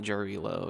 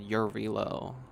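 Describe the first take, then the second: First: The name begins with a J sound. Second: The name begins with a Y sound. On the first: The speaker calls it wrong. "not Jarilo" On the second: The speaker calls it right. "like a silent J. They said Yarilo"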